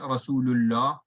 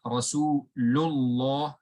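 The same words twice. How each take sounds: First: The lam is pronounced light, with an empty mouth. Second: The lam is pronounced heavy, with a full mouth. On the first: The speaker calls it wrong. "it's not Rasulullah" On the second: The speaker calls it right. "If it has a fatha or a dhamma, it should be heavy"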